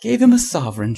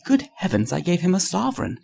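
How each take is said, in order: First: Higher, louder echo of the words; incredulous shout. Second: High-pitched exclamation climbing at the end; dismayed cry. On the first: Trevor echoing Hughie's blunder back at him, shouting. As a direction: shout it back in amused disbelief. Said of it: "shouted Trevor". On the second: Hughie realising he tipped a millionaire, crying out in dismay. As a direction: cry it out, aghast at the blunder. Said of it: "cried Hughie". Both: A narrator's reading.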